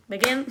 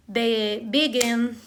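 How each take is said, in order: First: "begin" short, GIN stressed with a rising end; quick stress demo. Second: "begin" drawn out slowly, stress on GIN, be-GIN; slow stress demo. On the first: Teacher retrying the stress demo, quick rising take. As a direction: toss off "begin" with a lift on GIN. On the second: Teacher demonstrating stress for students, slow and careful. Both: Shown as a demonstration. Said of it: "say the stress syllable".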